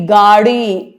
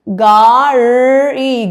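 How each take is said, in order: First: Said in the usual way. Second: گاڑی drawn out very slowly and louder; slow stretched word. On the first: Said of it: "teacher repeats the word normally". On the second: Shown as a demonstration. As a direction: stretch every sound of گاڑی. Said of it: "teacher demonstrates the word slowly".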